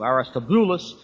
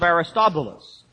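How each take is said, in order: First: The stress is on the 'bu' syllable. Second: The stress is not on the 'bu' syllable. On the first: The speaker calls it right. "The accent is over on the boo" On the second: The speaker calls it wrong. "I always mispronounce that"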